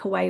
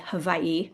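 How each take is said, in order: First: The middle consonant is a W sound. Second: The middle consonant is a V sound.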